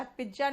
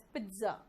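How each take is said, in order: First: "पिज्जा" said pij-ja; wrong-example "पिज्जा", j for ts; wrong pizza with j. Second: "पिज्जा" said PIT-za; softer corrected "पिज्जा" with ts; correct pizza pronunciation. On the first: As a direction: put a j in "पिज्जा". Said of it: "पिज्जा नहीं होता". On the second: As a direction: put a t before the z in "पिज्जा". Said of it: "pronunciation थोड़ा अलग निकलता है". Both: Shown as a demonstration.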